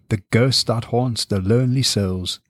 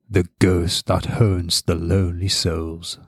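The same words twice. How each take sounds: First: It is read plainly, without much character. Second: It is read in a sinister, characterful voice.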